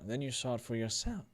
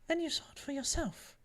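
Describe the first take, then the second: First: It is said in another character's voice. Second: It is said in Annabelle's character voice.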